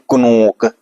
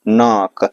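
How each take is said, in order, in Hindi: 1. n से पहले k की आवाज़ बोली जाती है। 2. शब्द n से शुरू होता है, k साइलेंट है। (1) "क्या कुनोक सही होगा, नहीं" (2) "के को साइलेंट रखेंगे"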